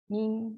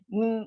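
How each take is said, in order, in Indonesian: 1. Bunyi m ditutup ringan tanpa tekanan. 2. Bunyi m ditekan keras dengan bibir rapat. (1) "Tanpa tekanan dan keadaan diam. ... macam tu saja" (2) "bukan yang ketat rapat tu bukan eh"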